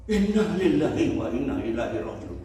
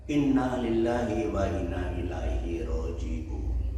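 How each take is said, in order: First: "Inna lillahi wa inna ilaihi roji'un" blurted louder and higher; hurried cry. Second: Slow, level owner recitation of "Inna lillahi wa inna ilaihi roji'un"; calm recitation. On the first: Traveler crying out the phrase to stop at the cliff, urgent voice. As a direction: call it out desperately. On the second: Camel owner teaching the stopping phrase, slow calm voice. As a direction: intone it calmly. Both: Retold or imitated.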